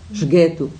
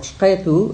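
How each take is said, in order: First: The word has a hard g sound. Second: The word has a deep throaty q sound.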